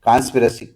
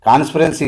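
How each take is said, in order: First: The word ends without any n sound. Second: The word ends with an added n sound. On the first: The speaker calls it right. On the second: The speaker calls it wrong. "కాన్స్పిరెన్సీ కాదు నాయన"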